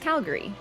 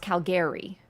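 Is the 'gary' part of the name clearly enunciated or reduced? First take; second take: reduced; enunciated. First: The 'gary' part is reduced and quick. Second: The 'gary' part is clearly and fully enunciated. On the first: "It's just Calgary" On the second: "the Gary is really enunciated"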